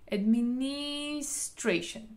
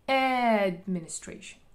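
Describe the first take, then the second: First: The stress is on the third syllable. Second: The stress is on the first syllable. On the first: "אם אני עושה על העברה השלישית" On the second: "אם אני רוצה להדגיש את העברה הראשונה"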